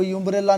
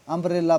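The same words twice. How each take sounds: First: यूम्ब्रेला with a "yoo" at the start; wrong pronunciation. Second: अम्ब्रेला with a short "uh" at the start; correct pronunciation. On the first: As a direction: open यूम्ब्रेला on a y-glide, "yoom-brella". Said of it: "इसको यूम्ब्रेला नहीं पढ़ेंगे". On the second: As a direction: open अम्ब्रेला on a plain vowel, "um-brella". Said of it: "अम्ब्रेला पढ़ते हैं". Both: Shown as a demonstration.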